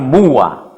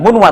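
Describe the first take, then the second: First: No n sound comes before the w. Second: An n sound comes before the w. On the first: The speaker calls it right. "tapi muwa" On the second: The speaker calls it wrong. "bukan munwa"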